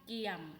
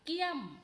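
First: The syllable has a low tone. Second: The syllable has a falling tone. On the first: "เอก" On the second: "โท"

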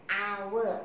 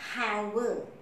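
First: The word starts with a vowel, h silent. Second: The word starts with a pronounced h sound. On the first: The speaker calls it right. "It is hour. Ah sound" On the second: The speaker calls it wrong. "It is not hour"

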